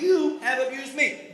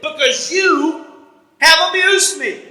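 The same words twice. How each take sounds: First: Said in the usual way. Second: Slow wounded complaint, drawn out; aggrieved Balaam, slow. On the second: Retold or imitated. Balaam complaining slowly to his donkey, aggrieved. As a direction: lean on every word like a hurt man.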